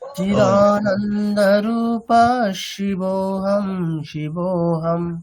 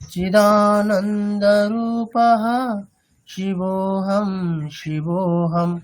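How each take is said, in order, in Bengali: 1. এটা থামা ছাড়াই সোজা shivoham-এ গিয়ে পড়ে। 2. প্রথম shivoham-এর আগে একটু থামা আছে। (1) "যদি আমি একসাথে বলি তখন হবে" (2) "যদি ওখানে আমি থামি তাহলে হবে না"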